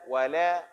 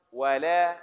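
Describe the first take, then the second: First: The L sound is thin and light. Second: The same.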